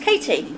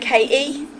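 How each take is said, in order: First: The 't' sound in the middle is pronounced. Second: The 't' sound in the middle is dropped. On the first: The speaker calls it right. "It's Katie. It has a T in it" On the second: The speaker calls it wrong. "even her parents called her K E"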